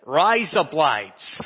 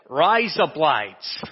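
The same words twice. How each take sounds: First: It is said in an Australian accent. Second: The same.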